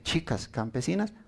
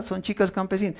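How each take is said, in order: First: "chicas campesinas" said softly with a mild sneer; scornful tone. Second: Said in the usual way. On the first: Shown as a demonstration. Preacher showing how a sneer turns truth into insult, quietly scornful. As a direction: let a little contempt into "chicas campesinas". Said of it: "Pero si se les decía". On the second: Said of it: "Si en un tono normal".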